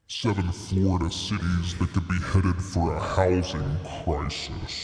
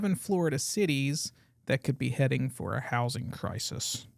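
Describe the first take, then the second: First: It is said in a deep demon voice. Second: It is said in a natural voice.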